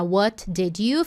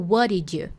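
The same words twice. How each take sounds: First: "What did you" slow, each T and D released separately; slow, choppy "What did you"; unlinked. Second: "What did you" run together as "whadidju"; natural linked "What did you". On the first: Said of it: "ao invés de ficar". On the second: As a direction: blend "What did you" into one flow. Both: Shown as a demonstration.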